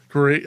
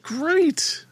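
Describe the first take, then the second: First: Said in the usual way. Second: High-pitched squeaky great. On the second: Real, not acted. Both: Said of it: "my voice is very high".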